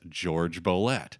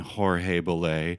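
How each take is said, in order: First: The first name is said the English way. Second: The first name is said the non-English way. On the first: This is the form the pianist himself preferred. "he wanted his name to be pronounced, anglicized, as [name]" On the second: This follows the spelling of the name. "do you mean [name]?"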